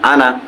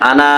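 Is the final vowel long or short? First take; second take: short; long. First: The final vowel is kept short. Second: The final vowel is drawn out long. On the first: The speaker calls it right. "আলিফ থাকা সত্ত্বেও এটিকে টেনে পড়া যাবে না" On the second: The speaker calls it wrong. "আনা এভাবে বলবো না"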